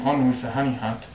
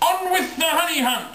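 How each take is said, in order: First: It is said in a calm, plain voice. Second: It is said loudly, like a yell.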